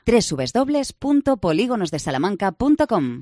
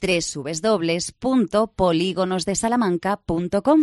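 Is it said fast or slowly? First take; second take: fast; slowly. First: It is said at a normal, faster pace. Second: It is said more slowly.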